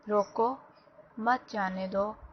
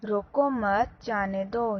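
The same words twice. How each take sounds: First: The pause comes after the first word, روکو. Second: The pause comes after the second word, مت.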